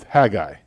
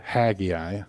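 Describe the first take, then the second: First: Haggai as HAG-eye, two clean syllables; the correct Haggai, HAG-eye, no extra vowel; proper pronunciation. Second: Haggai as HAG-ee-eye, three syllables, rising; Southern pronunciation. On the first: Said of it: "the proper way to say it is Haggai". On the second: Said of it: "with a Southern accent". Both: Shown as a demonstration.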